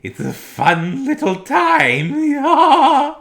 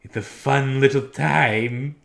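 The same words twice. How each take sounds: First: Put-on very high, loud, very slow lisping old comedian; high falsetto impersonation. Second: Slow, louder, higher put-on voice; impersonation. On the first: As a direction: squeeze it up into a giddy falsetto. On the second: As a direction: draw out the words like a show host. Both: Shown as a demonstration. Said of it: "try and do impersonations".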